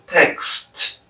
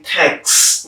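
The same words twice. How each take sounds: First: "text" with a released final t; uttered completely. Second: "text" with the final t dropped, as "tex"; incomplete sound. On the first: Teacher showing full enunciation, "text" completed with its last t. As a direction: finish "text" on an audible t after the s. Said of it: "instead of". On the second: Teacher showing the usual habit, "text" left unfinished without its last t. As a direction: stop "text" on the s. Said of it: "We usually say". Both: Shown as a demonstration.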